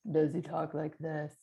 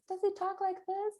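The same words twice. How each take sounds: First: Loud put-on voice at normal pitch; worry character voice. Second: Very high, squeaky monotone character; silly worry voice. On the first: Showing parents another voice for a child's worry, put-on louder voice. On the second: Showing parents how to give a worry a voice, high silly voice. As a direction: squeak it way up high like a tiny creature. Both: Shown as a demonstration. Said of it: "You could give it a voice".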